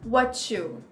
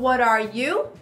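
First: It is said faster, and 'are' disappears. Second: Every word is said, including 'are'. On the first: "Mais rápido" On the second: "Então"

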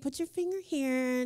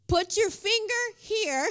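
First: It is said casually, in a light, cute way. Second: It is said forcefully, like an exclamation.

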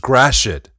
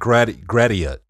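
First: The name is said the local Detroit way. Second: The name is said the outsider way. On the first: The speaker calls it right. "It's Gratiot" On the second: The speaker calls it wrong. "not Gratiot"

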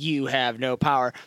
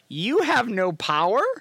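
First: The voice falls at the end, a flat statement. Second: The voice rises at the end, like a question.

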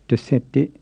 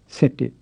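First: The first syllable de is pronounced. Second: The first syllable de is left off. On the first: "instead of desette" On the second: "people often leave off the first syllable"

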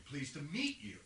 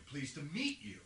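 The two takes are said the same way.

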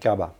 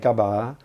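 First: The final vowel is cut short. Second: The final vowel is held long. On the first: This is a newer, changed way of saying it. "over time people say it gaba" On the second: This is the older way of saying it. "if you ask the old people, they say gaba"

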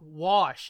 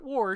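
First: The word is said without an r sound. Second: The word is said with an r sound. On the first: The speaker calls it right. "it's wash" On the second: The speaker calls it wrong. "not warsh"

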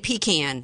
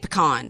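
First: It is said the way Georgians say it. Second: It is said the way Louisianans say it. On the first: This is how the other person's region says it. "because y'all say pecan" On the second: This is how the speaker's own region says it. "we say pecan"

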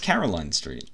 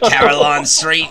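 First: The name is said in a plain local accent. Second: The name is said with an Australian accent. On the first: The speaker calls it right. "It's just" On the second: The speaker calls it wrong. "why do you keep saying it with an Australian accent? You're like"

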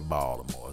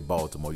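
First: It is said with a local Baltimore accent. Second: It is said with a standard pronunciation.

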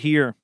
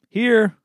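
First: It is said quickly and hard. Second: It is said in a dorky, nerdy tone. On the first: The speaker calls it right. "Quick, hard" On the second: The speaker calls it wrong. "That's dorky. You hear that? That was the tone"

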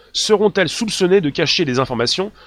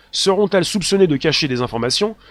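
The two takes are said the same way.

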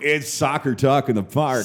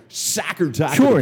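First: It is said in his normal voice. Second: It is said like an American broadcaster.

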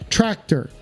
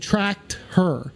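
First: The two words are run closely together. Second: The two words are said with space between. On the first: "the space between the two words a little bit closer together" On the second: "So say it with me"

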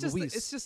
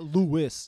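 First: The name is said the Spanish way. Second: The name is said the English way. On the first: The speaker calls it right. "he's Spanish" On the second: The speaker calls it wrong. "you're not Luis"

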